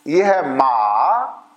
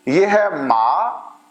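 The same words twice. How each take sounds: First: Slow low dipping माँ, ये है माँ; teacher sinks माँ low, then lifts it; dipping tone demo. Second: Slow rising mā, ये है माँ with a lift; teacher drawing out माँ on a rising tone; rising tone demo. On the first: Teacher showing students the third tone, low and slow. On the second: Teacher showing students the second tone, slow rise. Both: Shown as a demonstration. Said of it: "माँ का मतलब भी mother है".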